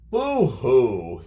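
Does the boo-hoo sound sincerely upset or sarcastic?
sarcastic. It sounds mocking and sarcastic. It is not worth crying about. "they might say it that way"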